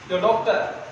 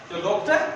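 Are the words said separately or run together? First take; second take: run together; run together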